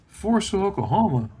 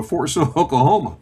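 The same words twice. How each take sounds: First: Imitating a dad's disbelief, pitched high at first; incredulous echo. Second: Said in the usual way. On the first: Dad reacting to his son's Army posting, incredulous. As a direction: repeat it back as a disbelieving question.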